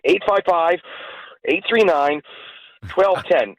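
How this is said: There are pauses between the digit groups.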